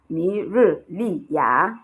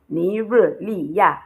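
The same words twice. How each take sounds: First: The last syllable falls and then rises. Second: The last syllable has a falling tone. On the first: This is how it is written. "there is the falling and rising tone on the A" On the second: This is how people actually say it. "it sounds like there is the falling tone on the A"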